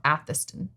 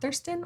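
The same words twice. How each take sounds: First: "Atherston" with a silent R, like Athuh-stun; R dropped. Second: "Atherston" with the R sounded; R pronounced. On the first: Trying both pronunciations of the town, R dropped. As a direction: drop the R in "Atherston". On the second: Trying both pronunciations of the town, R sounded. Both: Shown as a demonstration. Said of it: "if you pronounce the R".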